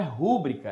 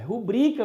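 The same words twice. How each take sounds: First: "rúbrica" stressed on the first syllable, RÚ; wrong stress on RÚ. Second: "rubrica" stressed on the middle syllable, BRI; correct stress on BRI. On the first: Teacher showing the mispronunciation, "rúbrica" stressed on RÚ. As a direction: hit RÚ in "rúbrica", leaving bri and ca weak. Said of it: "A pronúncia correta não é rúbrica". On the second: Teacher correcting the pronunciation, "rubrica" stressed on BRI. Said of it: "é rubrica mesmo". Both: Shown as a demonstration.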